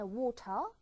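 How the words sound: The T is strong and clear, Australian style.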